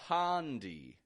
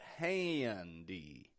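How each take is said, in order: First: The first vowel is a plain open sound. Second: The first vowel has a nasal, twangy quality. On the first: The speaker calls it wrong. "I'm not giving it a handy" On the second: The speaker calls it right. "but handy"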